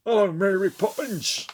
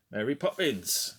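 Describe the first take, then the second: First: High, loud mock Cockney; hammed-up bad Cockney accent, called out. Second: Said in the usual way. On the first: Film fan mocking a Mary Poppins actor, bad Cockney accent.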